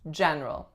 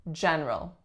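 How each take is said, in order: First: The middle syllable is dropped. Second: The same.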